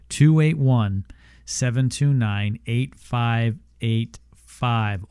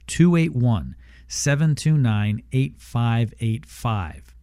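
First: The number is said slowly. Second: The number is said at normal, quicker speed.

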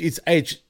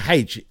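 First: The letter is said the American English way. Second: The letter is said the non-American way. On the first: The speaker calls it wrong. "he says in American English, it's H" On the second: The speaker calls it right. "but it's really H"

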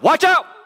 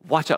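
First: It is shouted loudly to wake listeners. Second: It is said in a calm, quiet voice.

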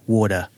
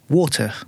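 First: The middle sound is a soft D. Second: The middle sound is a clear T.

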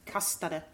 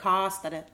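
First: The first vowel is short. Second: The first vowel is long. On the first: The speaker calls it right. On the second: The speaker calls it wrong.

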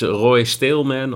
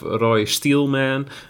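First: The surname is pronounced with Dutch sounds. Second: The surname is pronounced with English sounds.

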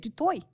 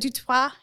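First: The name is said the South African way. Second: The name is said the French-sounding way.

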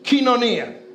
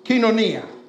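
First: The first syllable sounds like 'kee'. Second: The first syllable sounds like 'kee'.

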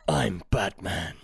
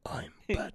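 First: It is said in a full voice. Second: It is whispered and small.

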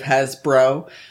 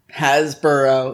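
First: The ending sounds like a short bro. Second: The ending sounds like the word burrow. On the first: The speaker calls it right. "instead of" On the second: The speaker calls it wrong. "It sounded like you said... like when people spell out burrow the whole way with an extra O"

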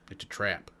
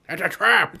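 First: It is said in an ordinary, plain voice. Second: It is said in a put-on character voice. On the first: The speaker calls it wrong. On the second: The speaker calls it right.

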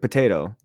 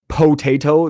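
First: The first vowel is a softer, reduced sound. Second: The first vowel is a full, hard O. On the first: The speaker calls it right. "it's a softer O" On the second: The speaker calls it wrong. "no one says potato"

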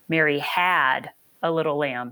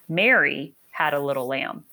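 First: The stress is on the word had. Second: The stress is on the word Mary.

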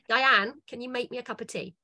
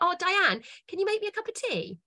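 First: It sounds curt and demanding. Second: It sounds warm and friendly.

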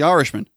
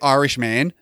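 First: The stress is on the first syllable. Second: The stress is on the final syllable, 'man'. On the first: The speaker calls it right. "It's The Irishman" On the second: The speaker calls it wrong. "Don't say Irishman"

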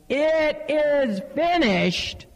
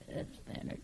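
First: It is cried out loudly and strongly. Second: It is said weakly, barely audible.

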